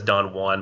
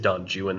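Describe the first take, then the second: First: Juan is said the familiar, usual way. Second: Juan is said in an odd, anglicized way. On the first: This is how the name is usually read. "I know it says Don Juan" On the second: This is how the author wanted the name said. "he pronounced it Don Juan"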